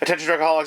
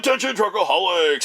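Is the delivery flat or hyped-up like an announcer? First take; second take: flat; hyped. First: It is said flatly, without energy. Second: It is said loud and hyped, like an announcer. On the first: The speaker calls it wrong. "You can't just say" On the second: The speaker calls it right. "you have to actually go"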